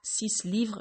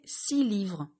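First: The number's final consonant is pronounced. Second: The number's final consonant is silent. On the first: The speaker calls it wrong. "et pas" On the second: The speaker calls it right. "on ne prononce pas la fin de 6"

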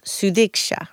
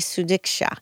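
First: The middle consonant has a slight th sound. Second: The middle consonant is a plain d sound. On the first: The speaker calls it right. "put like a little bit of a TH sound on the D" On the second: The speaker calls it wrong. "I wanted to say Sudiksha"

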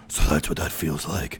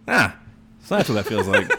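First: It is said in a gruff Batman voice. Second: It is said in a natural speaking voice.

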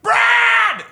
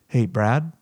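First: It is said loudly and intensely. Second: It is said softly and gently.

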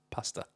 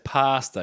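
First: The first vowel is kept short and quick. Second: The first vowel is drawn out very long.

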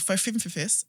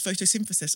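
First: The word is pronounced in an odd, childish way. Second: The word is pronounced the standard way.

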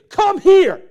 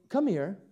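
First: The voice is harsh and commanding. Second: The voice is soft and gentle. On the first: The listener is being ordered around. The speaker calls it wrong. "It's direct. It's harsh" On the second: The listener is being invited kindly. The speaker calls it right. "What did tone just do?"

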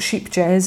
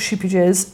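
First: The name sounds like sheep jazz. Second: The name sounds like sheepy jazz. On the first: "it's not sheep jazz" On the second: "it's not sheepy jazz"

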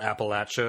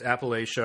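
First: It is pronounced the way the locals say it. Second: It is pronounced the way outsiders usually say it. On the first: This is what people who live there call it. The speaker calls it right. "Apparently that's what the people there call it" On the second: This is the version most people were taught. The speaker calls it wrong. "We've been told wrong our whole lives if you were told Appalachia"

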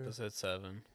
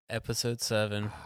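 First: It is said at normal, softer volume. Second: It is said loudly.

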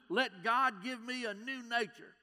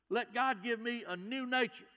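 The two takes are said the same way.

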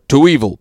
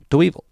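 First: The word is said with big, dramatic energy. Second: The word is said flat and thrown away. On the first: "you said that in a" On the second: "But he's just"

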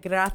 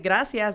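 First: The 'c' sounds like a th. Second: The 'c' sounds like a plain s. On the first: This is how people from Spain say it. "they use, like, the TH" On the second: This is how the speaker's own group says it. "how we say gracias"

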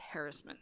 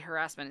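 First: The stress is on the first syllable. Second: The stress is on the second syllable. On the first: This version avoids sounding like 'her ass'. The speaker calls it right. "It's harassment now" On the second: This version sounds like it contains 'her ass'. The speaker calls it wrong. "They can't say harassment. ... because it has her ass in it"

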